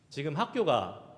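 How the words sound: It is said in a Gyeongsang accent. It asks whether the person is at school now. "경상도 사람들이 이 이야기를 하면 어떻게 합니까?"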